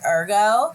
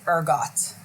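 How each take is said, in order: First: The word ends without a t sound. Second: The word ends with a clear t sound. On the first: The speaker calls it wrong. "I want to pronounce it ergo" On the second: The speaker calls it right. "And guess what? It is ergot"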